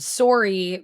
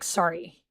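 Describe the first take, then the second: First: "sorry" slowly, with a clear rounded O; Canadian sorry. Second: "sorry" with an A sound, no O; American sorry. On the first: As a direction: stretch the O in "sorry". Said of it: "because we're saying the O". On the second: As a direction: say "sorry" like sari. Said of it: "but in America, it's kinda like". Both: Shown as a demonstration.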